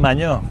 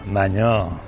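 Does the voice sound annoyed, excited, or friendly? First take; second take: friendly; annoyed. First: It sounds like a casual, friendly greeting. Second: It sounds irritated and reproachful. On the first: Greeting someone met on the street. "Que te encuentras por la calle con un maño" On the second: Complaining about an unwelcome prank. "Que un maño te gaste una broma y no te gusta"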